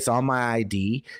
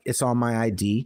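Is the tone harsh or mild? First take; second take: harsh; mild. First: It is said in a harsh, confrontational tone. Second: It is said in a mild, casual tone. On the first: The speaker calls it wrong. "She didn't say it like that" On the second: The speaker calls it right. "but she's just like"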